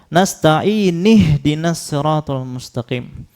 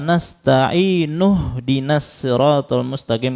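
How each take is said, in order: First: Nasta'in ends with an i vowel. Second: Nasta'in ends with an u vowel. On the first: The speaker calls it wrong. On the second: The speaker calls it right.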